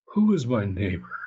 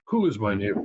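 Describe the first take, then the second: First: The question sounds warm, open and eager. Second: The question sounds guarded, narrow and defensive. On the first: The asker wants to know how to help more people. The speaker calls it wrong. "Not in the tone of voice" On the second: The asker wants to limit whom they must help. The speaker calls it right. "It's exactly who am I obligated to?"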